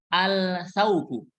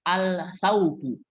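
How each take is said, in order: Both takes have the same delivery.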